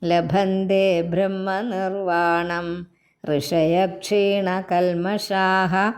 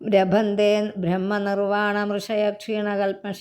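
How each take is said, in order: First: There is a pause after 'brahmanirvanam'. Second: The words run together without a pause. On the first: The speaker calls it right. "അവിടെ നിർത്തണം" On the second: The speaker calls it wrong. "എന്ന് പറയേണ്ട കാര്യമില്ലല്ലോ"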